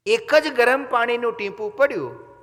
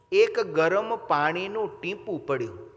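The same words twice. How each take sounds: First: જ hit higher and louder; stress on જ. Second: એક drawn out slowly with a falling tune; slow emphasis. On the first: Preacher insists it was only one drop. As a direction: punch the word જ, just one drop. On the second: Preacher dwells on a single drop. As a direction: linger on એક. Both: Shown as a demonstration.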